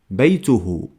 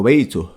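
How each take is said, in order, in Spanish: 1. La palabra termina en la vocal final u. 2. La vocal final se omite, termina en h.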